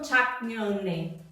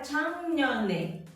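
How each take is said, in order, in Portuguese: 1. A primeira sílaba termina com som de k. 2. A primeira sílaba termina com som de ng. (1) "não 작년에" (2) "a pronúncia fica 작년에"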